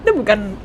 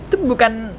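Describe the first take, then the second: No difference in how they are said.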